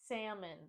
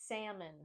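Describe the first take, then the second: The two takes are said the same way.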